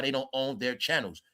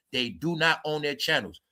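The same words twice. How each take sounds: First: Said in the usual way. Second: "not" spelled out and hit harder; stress on NOT. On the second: Shown as a demonstration. YouTuber insisting to viewers, stress on "not". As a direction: split "do not" and lean on "not".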